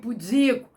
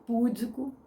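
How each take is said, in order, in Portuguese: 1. A tônica está na segunda sílaba. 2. A tônica está na primeira sílaba. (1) "Fulano é um homem pudico" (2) "Ai, fulano é um homem tão púdico. Ah, ah, não"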